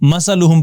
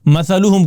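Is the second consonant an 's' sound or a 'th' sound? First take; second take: s; th. First: The second consonant is a plain 's' sound. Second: The second consonant is a soft 'th' sound. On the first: The speaker calls it wrong. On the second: The speaker calls it right.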